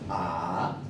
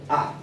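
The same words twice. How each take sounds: First: The pitch dips low then rises. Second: The pitch is short and abrupt. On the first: "Tercer tono es baja y sube" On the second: "El cuarto tono es seco"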